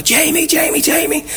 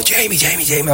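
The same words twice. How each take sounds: First: Imitated excited women. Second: Raised pitch, kept soft; imitated eager fan. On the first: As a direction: mimic women fans calling out in falsetto. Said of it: "these three women ... come running out". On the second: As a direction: mimic an excited fan calling out, at half volume. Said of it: "Liverpool fan comes running over".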